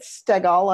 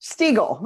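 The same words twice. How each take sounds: First: "Stegall" said STEG-all, short e, stress first, full "all" ending; "Stegall" with an eh vowel and a broad -gall; wrong name pronunciation. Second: "Stegall." said STEE-gull, long ee, stress first, weak -gull; "Stegall." with a long ee and a reduced second syllable; corrected name pronunciation. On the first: Host greeting the guest, mispronouncing "Stegall" as STEG-all. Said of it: "That's not close at all". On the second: Host repeating the guest's correction, "Stegall." as STEE-gull. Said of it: "What would be right?". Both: Shown as a demonstration.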